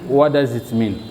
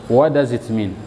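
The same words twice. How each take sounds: First: The T at the end of 'what' is dropped. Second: The same.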